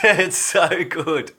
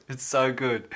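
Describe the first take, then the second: First: High, slow and laughing; amused, laughing it off. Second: Said in the usual way. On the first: Real, not acted. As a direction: drag it out through a laugh. Laughing reply to viewer comment.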